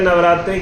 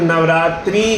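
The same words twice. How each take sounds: First: The final vowel is a short i. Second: The final vowel is a long ee. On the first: The speaker calls it right. "मात्रा इ की क्यों है? ... सही" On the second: The speaker calls it wrong. "गलत क्यों हो जाता है"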